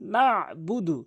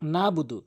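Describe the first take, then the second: First: The middle consonant is pressed from the throat. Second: The throat consonant in the middle is left out. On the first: The speaker calls it right. "চাপ দিয়ে" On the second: The speaker calls it wrong. "আইনের আইনটি বাদ দিয়ে ফেলে"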